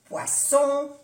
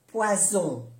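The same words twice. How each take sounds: First: "poisson" high and loud, with an unvoiced s; double S. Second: "poison" with a voiced z, falling; Z sound. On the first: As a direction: punch "poisson" with a hissed s. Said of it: "Las dos S". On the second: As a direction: say French "poison" with a buzzing z. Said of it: "se pronuncia como una Z". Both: Shown as a demonstration.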